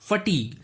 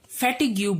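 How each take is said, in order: First: The word ends with a plain 'g' sound. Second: The word ends with a 'gyoo' sound. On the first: The speaker calls it right. "इसे फटीग कहा जाता है" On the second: The speaker calls it wrong. "इसे अधिकतर लोग फैटिग्यू बोलते हैं"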